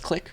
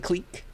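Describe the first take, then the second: First: The word sounds like the English word 'click'. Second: The word is said in a French-like way. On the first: This is the everyday English pronunciation. "usually in English we pronounce that word as click" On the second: This is the pronunciation used in graph theory. "But we say clique in graph theory"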